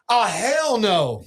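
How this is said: It is said imitating JT's voice.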